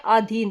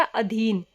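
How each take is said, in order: First: आधीन said with a long आ at the start; आधीन, the first vowel stretched to आ; wrong form. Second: अधीन said with a short अ at the start; अधीन, the first vowel kept short as अ; correct form. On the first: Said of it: "आधीन कोई शब्द नहीं होता". (आधीन लंबे आ के साथ) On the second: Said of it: "शब्द होता है हमारा अधीन". (अधीन छोटे अ के साथ) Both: Shown as a demonstration.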